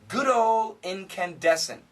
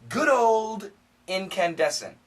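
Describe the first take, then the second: First: The D sound is left out entirely. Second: The D is fully stopped before the next word. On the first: "if we say this fast, there's no D" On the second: "we can stop it with a D"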